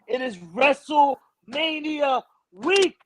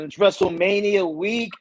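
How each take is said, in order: First: It is said forcefully, from the chest. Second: It is said casually, without force.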